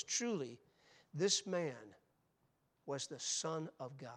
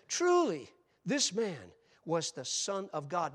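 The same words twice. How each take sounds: First: Said in the usual way. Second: Loud, ringing declaration of the centurion; shouted proclamation from the foot of the cross; exclaimed. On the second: Acted. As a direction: cry it out with awe, slowing at the end. Preacher voicing the centurion's cry.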